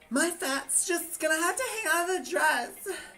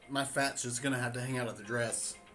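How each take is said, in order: First: It is said in a put-on drag voice. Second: It is said in a natural speaking voice.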